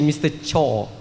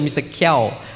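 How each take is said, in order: First: The name begins with a ch sound. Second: The name begins with a k sound. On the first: The speaker calls it right. "but it's actually Mister Cho" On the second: The speaker calls it wrong. "I say hello, Mister Kiao"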